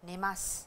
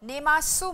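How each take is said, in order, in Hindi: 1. आखिरी 'u' स्वर छोड़ दिया जाता है, और शब्द 's' पर खत्म होता है। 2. आखिरी 'u' स्वर पूरा बोला जाता है। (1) "प्रोनाउंस स किया जाता है" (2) "इसको नेमासु मत बोलिए"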